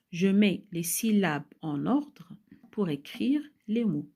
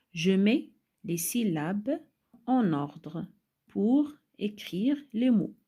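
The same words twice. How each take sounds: First: Loud, clear reading in longer phrases; more connected reading. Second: Slow, loud, with a break after each phrase; slow phrase-by-phrase reading. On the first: Teacher repeating the instruction for pupils, in connected phrases. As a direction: read it out clearly with fewer breaks. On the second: Teacher reading the exercise instruction to children, slowly in chunks. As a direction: read it out slowly in separate chunks. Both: Shown as a demonstration.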